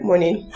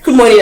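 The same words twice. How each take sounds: First: MORNING muttered low and soft, with no tone; withholding, barely-voiced MORNING; toneless curt greeting. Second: Said in the usual way. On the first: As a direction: give MORNING back cold and much quieter. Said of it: "As in, with no tone, like, energy for energy". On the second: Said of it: "As in, with no tone".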